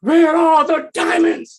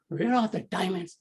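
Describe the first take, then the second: First: It is said loudly and harshly. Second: It is said softly and sarcastically.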